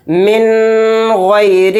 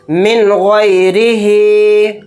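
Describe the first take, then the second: First: من غیرہ with the noon held long in the nose; wrong reading. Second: من غیرہ with the noon said clear and quick, no nasal hold; correct izhar reading. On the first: Teacher shows students the common mistake in من غیرہ, nasal noon. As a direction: drag the noon of من as nasal ghunna. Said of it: "اس کو غلط اس طرح سے پڑھتے ہیں لوگ". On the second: Teacher models for students من غیرہ with a clean noon. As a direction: noon of من crisp, no ghunna. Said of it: "اس نون کو ظاہر کر کے بلا غنہ کے جلد پڑھیں گے". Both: Shown as a demonstration.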